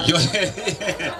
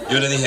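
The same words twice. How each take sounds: First: Slow, laughing through the words. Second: Said in the usual way. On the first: Real, not acted. Pastor retelling his reply to the sister, laughing. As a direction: chuckle as you say it.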